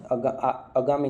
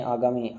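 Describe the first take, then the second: First: "आगामी" with a short first vowel, "agaami"; wrong pronunciation. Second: "आगामी" with a long first vowel, "aagaami"; correct pronunciation. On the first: Teacher shows students the wrong spelling, short first vowel. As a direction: shorten the opening of "आगामी" to a brief "a". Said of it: "नहीं". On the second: Teacher corrects the word for students, long first vowel. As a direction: open "आगामी" on a full long "aa". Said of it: "आगामी नहीं". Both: Shown as a demonstration.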